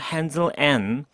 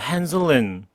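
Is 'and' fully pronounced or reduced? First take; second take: full; reduced. First: The word and is pronounced fully and clearly. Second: The word and is reduced to a short n. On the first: "and로 똑바로 발음하는 거" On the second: "슈아 발음으로 처리하는 방식"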